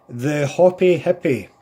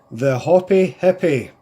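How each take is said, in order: Both takes have the same delivery.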